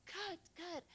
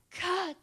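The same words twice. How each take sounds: First: Softer echoed cut. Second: Sudden high, loud yell; yelled cut. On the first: Director echoing her actress's yell, lightly called. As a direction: call cut lightly, pitched up. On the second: Actress breaking off an emotional take, yelled. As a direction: yell it out hard, high-pitched. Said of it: "and she yelled". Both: Retold or imitated.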